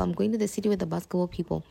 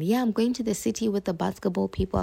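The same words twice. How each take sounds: First: Even faster, dropping off; rushed repeat. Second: Quick, carefree telling of plans; fast breezy quote. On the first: Repeating her plans to everyone, rushed and trailing off. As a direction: toss the repeat off in a hurry. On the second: Telling everyone about the trip, quick and breezy. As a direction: rattle it off cheerfully. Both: Retold or imitated. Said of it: "I was telling everyone".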